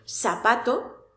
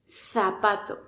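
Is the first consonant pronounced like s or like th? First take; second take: s; th. First: The first sound is an s sound. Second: The first sound is a th sound.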